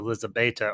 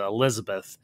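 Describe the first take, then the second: First: The name ends with a 'ta' sound. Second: The name ends with a 'th' sound. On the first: This is how the film's characters say it. "as they pronounce it" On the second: This is how English speakers usually say it. "or as we would pronounce it"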